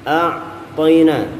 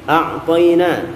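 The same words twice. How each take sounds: The two takes are said the same way.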